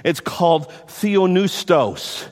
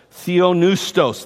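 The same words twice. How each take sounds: First: Theopneustos said slowly, syllable by syllable; Greek word taught. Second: Theopneustos, slow and deliberate; Greek word repeated. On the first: Preacher teaching the congregation a Greek word, slowly. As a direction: sound out theopneustos slowly for the class. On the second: Preacher drilling the Greek word for listeners, slowly. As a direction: repeat Theopneustos slowly so they can copy it. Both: Shown as a demonstration. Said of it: "a Greek word that I want to teach you".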